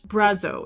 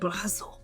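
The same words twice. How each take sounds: First: It is said with an American accent. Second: It is said with a French accent. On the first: "the best way I can pronounce this in my American accent" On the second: "if I had a French accent"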